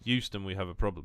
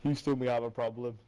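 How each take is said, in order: First: Euston said with no H, starting on a Y sound; Euston without an H. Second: Houston said with a clear H at the start. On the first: Correcting his friend, Euston said with no H at all. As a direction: say Euston like the London station, dropping the H. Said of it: "No, I said Euston". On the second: Teasing him over his Euston, the word Houston with the H sounded. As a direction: say Houston like the American city, H sounded. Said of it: "No, you said Houston". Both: Shown as a demonstration.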